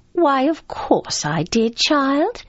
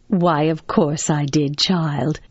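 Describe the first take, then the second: First: Slow, high-pitched grandmotherly reply; grandmother's voice. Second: Slow, assured motherly reply, pitched down; mother's voice. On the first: Grandmother answering the child about Peter Pan, high-pitched. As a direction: lift it high and slow, rising on the last word. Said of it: "she also says". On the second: Mother answering her child about Peter Pan, assured. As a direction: answer slowly and surely, dropping on the last word. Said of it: "she will say". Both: Acted.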